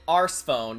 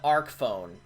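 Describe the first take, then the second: First: The first word ends with an s sound. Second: The first word ends with a k sound. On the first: The speaker calls it wrong. "you don't call it Arse phone" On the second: The speaker calls it right. "you call it Arc phone, like an arc"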